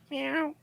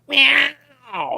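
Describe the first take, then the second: First: The meow is very faint and quiet. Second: The meow is loud like a roar.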